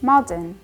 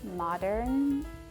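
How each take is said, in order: First: The R is pronounced weakly. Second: The R is pronounced strongly. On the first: This is the speaker's own accent. "The R is not strongly pronounced" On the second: This is how Americans say it. "I think American probably say modern"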